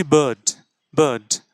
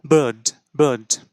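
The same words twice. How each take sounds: First: বার্ড as British "bird", no r sound, falling; pronunciation demo. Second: বার্ড in a British accent, r dropped, falling; British accent বার্ড with no rolled r; teacher showing the British accent. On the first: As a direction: say বার্ড with a long er vowel and silent r. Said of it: "তো আমরা কি বলছি?". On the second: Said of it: "British অ্যাকসেন্টে খুব একটা prominent না". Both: Shown as a demonstration.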